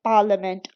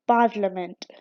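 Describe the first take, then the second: First: पार्लियामेंट with no R sound, "pah-liament"; British way, drop the R in पार्लियामेंट; British non-rhotic. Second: Parliament with a clear R, "par-liament"; parliament said the American way with a strong R; American rhotic. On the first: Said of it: "आर नहीं pronounce हो रहा". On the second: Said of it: "In American English it is parliament". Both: Shown as a demonstration.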